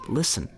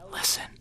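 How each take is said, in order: First: It is said at normal volume. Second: It is whispered even more quietly.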